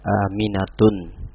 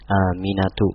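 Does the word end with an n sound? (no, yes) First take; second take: yes; no. First: The word ends with an added n sound. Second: The word ends in a plain vowel, no n. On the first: The speaker calls it wrong. "tidak boleh dibaca aminatun" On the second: The speaker calls it right. "nama wanita"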